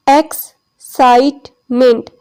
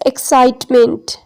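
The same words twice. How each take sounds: First: Excitement very slowly as ex, cite, ment; syllable division. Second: Said in the usual way. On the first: Shown as a demonstration. Teacher counting syllables for class, excitement in three separated beats. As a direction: pause after each of the three syllables of excitement. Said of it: "there are three syllables". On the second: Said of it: "syllable की division हम देखते हैं".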